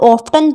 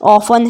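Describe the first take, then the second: First: The word is said with a t sound. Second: The word is said without a t sound. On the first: The speaker calls it wrong. "बहुत सारे लोग इसको ऑफ्टन पढ़ते हैं" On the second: The speaker calls it right. "ऑफन है पर ये"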